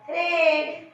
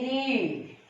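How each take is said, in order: First: "read" said like "red", with short eh; high-pitched "read" with the vowel of bed. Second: "read" with a long ee vowel. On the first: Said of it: "regular sound A". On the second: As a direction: say "read" drawn out, vowel like the letter E. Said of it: "It's long E because". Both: Shown as a demonstration.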